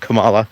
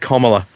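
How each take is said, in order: First: The name does not begin like 'comma'. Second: The name begins with a sound like 'comma'. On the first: The speaker calls it wrong. "not Kamala ... I always keep on mispronouncing it" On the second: The speaker calls it right. "Kamala, not Kamala ... comma like comma"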